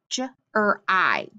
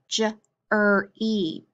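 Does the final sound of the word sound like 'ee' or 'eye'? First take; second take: eye; ee. First: The word ends with an 'eye' sound. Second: The word ends with an 'ee' sound. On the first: The speaker calls it wrong. "that Y at the end can say E or I" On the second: The speaker calls it right. "No, how about"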